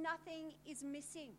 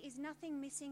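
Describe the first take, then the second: First: It sounds confident, like a firm statement. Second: It sounds doubtful, like a question.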